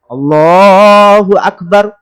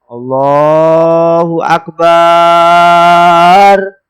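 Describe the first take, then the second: First: The vowel in 'bar' is kept short. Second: The vowel in 'bar' is drawn out long. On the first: The speaker calls it right. "Barnya haruslah pendek" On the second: The speaker calls it wrong. "Barnya yang panjang. Ini tidak boleh"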